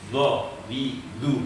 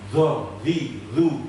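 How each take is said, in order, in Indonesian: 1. Napas ditahan dengan tekanan yang kuat. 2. Napas terdengar keluar pada setiap suku kata.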